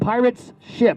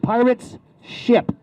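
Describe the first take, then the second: First: The phrase is said at a normal, quick pace. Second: The phrase is said very slowly and carefully.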